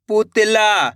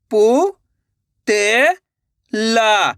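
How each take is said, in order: First: Said in the usual way. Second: पु, ते, ला with a clear pause after each; syllable by syllable. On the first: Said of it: "तो मिलके बन जाएगा". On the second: Shown as a demonstration. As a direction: sound out पु, ते, ला separately. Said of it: "एक एक अक्षर का उच्चारण करके". (पु, ते, ला एक-एक अक्षर रुक-रुक कर)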